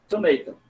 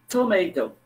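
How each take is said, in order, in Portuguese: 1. É dito com sotaque americano. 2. É dito com sotaque americano.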